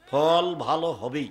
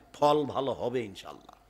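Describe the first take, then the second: First: ফল ভালো হবেই slow, with rising ফল; emphatic certainty. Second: Said in the usual way. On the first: Shown as a demonstration. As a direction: drive home হবেই with a laugh.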